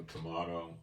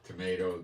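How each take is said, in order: First: "tomato" with an AH in the middle; tomahto pronunciation. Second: "Tomato" with an AY in the middle; tomayto pronunciation. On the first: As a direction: say "tomato" as to-MAH-to. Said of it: "I say tomato". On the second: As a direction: say "Tomato" as to-MAY-to. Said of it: "you say tomato". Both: Shown as a demonstration.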